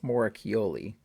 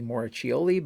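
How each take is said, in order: First: The name is said with non-English pronunciation. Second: The name is said with English pronunciation. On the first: The speaker calls it right. "but I believe it's [name] from interviews" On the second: The speaker calls it wrong. "English pronunciation might be"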